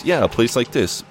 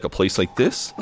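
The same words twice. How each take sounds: First: YEAH pitched up, THIS falling as a statement; confirming repetition. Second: Mildly taken aback, THIS rising into a question; mildly appalled question. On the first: Will confirming his insult to Jim, matter-of-fact confirmation. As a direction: confirm it firmly, dropping on THIS. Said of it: "And Will says". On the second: Jim echoing Will's insult to his workplace, mildly appalled. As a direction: repeat it back as a question, lifting THIS. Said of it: "Jim looks a little appalled". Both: Retold or imitated.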